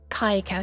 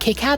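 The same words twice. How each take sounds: First: The first syllable sounds like 'kye'. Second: The first syllable sounds like 'kick'. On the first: "like a pie" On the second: "like kick-ass?"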